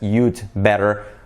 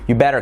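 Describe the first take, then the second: First: The word 'had' is contracted onto 'you'. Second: The word 'had' is left out entirely. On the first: "contracted as you'd better" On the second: "you don't even have to say you'd. Just you"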